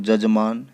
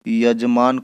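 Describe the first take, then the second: First: The word begins with a j sound. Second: The word begins with a y sound. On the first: This is the Nagpuri form. "य ज में ... बदल जाएगा" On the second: This is the standard Hindi form. "य ज में ... बदल जाएगा"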